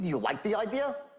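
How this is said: It sounds pushy and confrontational.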